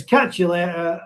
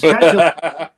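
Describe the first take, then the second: First: Said in the usual way. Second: Louder, hammed-up try at a Black Country accent; attempted Black Country accent. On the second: Shown as a demonstration. Reading a viewer's comment aloud in a tried Black Country accent. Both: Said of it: "hardest kind of accent to pronounce".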